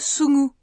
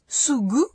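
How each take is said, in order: First: The middle consonant is a nasal ng sound. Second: The middle consonant is a voiced g stop. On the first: "une consonne nasale" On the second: "une consonne sonore"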